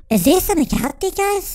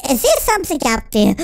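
First: Gasp, then rush the question higher; hammed-up panic, faster and rising; a lightly voiced scared kid, rushing; mock frightened. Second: Said in the usual way. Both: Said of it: "So he's going".

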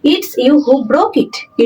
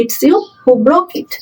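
First: Very slow, broke pressed with a falling tune; slow dictation landing on broke; teacher reading it out word by word; stress on broke. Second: Very slow, you lifted with a rising tune; slow dictation leaning on you; teacher repeating it for the class; stress on you. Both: Shown as a demonstration. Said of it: "teacher dictating the cleft sentence".

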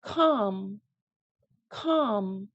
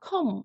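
First: "come" said as calm, with a long ah; open AH vowel. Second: "calm" said like "come", 컴; wrong pronunciation. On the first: Teacher models calm for learners, open ah sound. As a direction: stretch "come" into a drawn-out kahm. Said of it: "아 소리입니다". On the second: Teacher shows the sound to avoid, mispronounced "calm". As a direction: swap the ah in "calm" for an uh. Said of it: "calm 아니고". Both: Shown as a demonstration.

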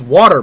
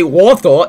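First: "water" with a clear final R; American pronunciation. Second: "water" as "waw-tuh", the British way; mock a Londoner's "water", dropping the R; exaggerated British "water", no R at the end; mimicked London pronunciation. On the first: Shown as a demonstration. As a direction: say "water" the American way, as "waw-der". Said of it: "It's water". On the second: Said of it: "You say water".

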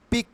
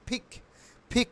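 First: "পিক" with plain unaspirated P; old wrong way. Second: "ফিক" with breath-puffed P; correct pronunciation. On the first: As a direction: say "পিক" with a Bengali P. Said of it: "এটাকে আমরা বলতাম". ("পিক"-এ প, ফ নয়) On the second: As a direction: say "ফিক" as aspirated "phik". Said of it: "এখন থেকে বলবো". ("ফিক", প-এর বদলে ফ) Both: Shown as a demonstration.

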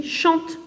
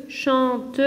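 First: Said in the usual way. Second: "chante" in two beats, chan, te; split into syllables. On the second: Shown as a demonstration. Teacher counting a verb's syllables, "chante" split in two. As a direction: sound the final e of "chante" as its own beat. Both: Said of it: "un verbe avec deux syllabes".

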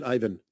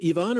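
First: Ivan said as EYE-vun; "Ivan" pronounced EYE-vən; English-style pronunciation. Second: Ivan said as ee-VAHN; "Ivan" pronounced EE-vahn; foreign-style pronunciation. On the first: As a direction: say "Ivan" starting like the word eye. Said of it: "Is it Ivan or is it Ivan?". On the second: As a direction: say "Ivan" with an EE start and open AH ending. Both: Shown as a demonstration.

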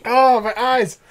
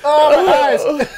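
First: Pained groan from the burn; wincing. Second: Higher, slow pained moan; drawn-out wince. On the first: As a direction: wince as the drink stings. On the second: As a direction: stretch it out like your eyes water. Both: Real, not acted.

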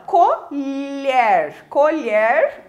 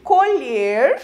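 First: COLHER with an open E, drawn out; slow, emphatic colher with the open vowel. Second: COLHER with a closed E; slow colher with the tighter, closed vowel. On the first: Teacher naming the kitchen utensil, open E in colher. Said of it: "pronúncia com o som aberto". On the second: Teacher explaining the verb, closed E in colher. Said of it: "a pronúncia com o som fechado". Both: Shown as a demonstration.

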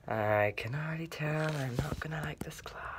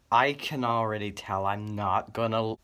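First: Breathy whisper to self; despairing whispered aside. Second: Said in the usual way. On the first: Acted. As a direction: mutter it so nobody hears. Muttered aside.

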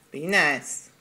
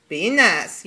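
First: Said in the usual way. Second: Louder, firmer repeat of the warning; louder second warning to the pet. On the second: Real, not acted. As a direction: say it again and mean it.

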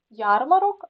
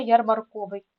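First: Ярмарок stressed on ЯР; stress on first syllable. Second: Ярмарковий stressed on КО; stress moved to КО. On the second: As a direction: say ярмарКОвий, leaning loudly on КО. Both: Shown as a demonstration. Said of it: "наголоси можуть часто змінюватися".

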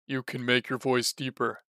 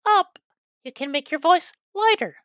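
First: Lower, darker demo voice; deeper voice. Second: Much higher, lighter demo voice. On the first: Teacher showing players a deeper voice, low demo. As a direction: drop the larynx and go low. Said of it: "If you bring it down". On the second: Teacher showing players a lighter voice, high demo. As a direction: lift the larynx and go high. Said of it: "If you bring it". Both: Shown as a demonstration.

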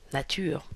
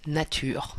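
No difference in how they are said.

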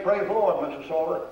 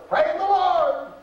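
First: Said in the usual way. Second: Put-on much higher, slow, drawn-out old woman's praise; high, slow, heartfelt "Praise the Lord" from the sick woman; invalid woman praising. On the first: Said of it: "Let me hear you say". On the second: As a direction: let it rise high and slow like a bedridden saint. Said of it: "She said better than you said".

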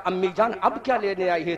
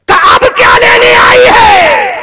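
First: Softer, fast, broken plea; a daughter's hushed plea to her mother; anguished, hushed. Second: High, loud, anguished wail; a daughter wailing at her mother in grief; anguished cry. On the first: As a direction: murmur it quickly, in anguish. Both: Acted. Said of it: "حضرت زینب نے تڑپ کے کہا".

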